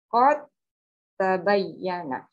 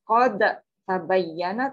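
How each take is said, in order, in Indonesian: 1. Bunyi d melebur menjadi bunyi t yang ganda. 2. Bunyi d dilepas terpisah dengan memantul. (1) "tapi bacanya" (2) "Tidak dibaca"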